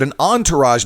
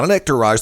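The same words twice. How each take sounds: First: "entourage" said with an opening "on" sound; pronunciation of entourage. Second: "entourage" said as "ec-tourage"; mispronunciation of entourage. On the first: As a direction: say "entourage" French-style, as "on-tour-azh". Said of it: "I said an entourage". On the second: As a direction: swap the first syllable of "entourage" for "ek". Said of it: "not an entourage". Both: Shown as a demonstration.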